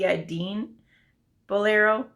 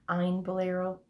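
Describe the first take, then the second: First: The name is said with a D sound. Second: The name is said without a D sound. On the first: The speaker calls it wrong. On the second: The speaker calls it right.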